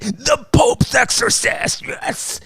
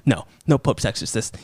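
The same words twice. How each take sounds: First: Sung, belt it like a hero's theme; sung fanfare. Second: Said in the usual way. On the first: Pretend. Reviewer singing the rescuer's name as a fanfare.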